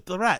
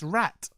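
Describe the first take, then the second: First: The word starts with an added d sound. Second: The word starts with a plain r sound. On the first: The speaker calls it wrong. "how does he add letters onto words that don't need to be there?" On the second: The speaker calls it right. "It's rat"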